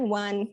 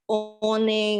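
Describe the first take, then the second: First: The word begins with a W sound. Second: The word begins with a plain vowel sound. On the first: The speaker calls it right. "bacanya kan one" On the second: The speaker calls it wrong. "kan bacanya nggak one kan nggak gitu"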